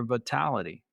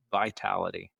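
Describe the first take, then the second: First: Vitality with a flat "va" first syllable, vah-TAL-ity; hillbilly slip. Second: Vitality corrected with a long "vai", vye-TAL-ity; plain. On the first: Real, not acted. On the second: Shown as a demonstration. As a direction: say Vitality with a clear "vai" diphthong. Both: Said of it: "my hillbilly accent comes out sometimes".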